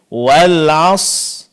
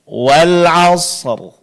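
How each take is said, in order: First: The final r is dropped entirely. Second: The final r is clear with no vowel. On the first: The speaker calls it wrong. "huruf ra-nya tidak diucapkan dengan jelas, bahkan ada yang tidak diucapkan sama sekali" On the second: The speaker calls it right. "seharusnya kita baca wal asr"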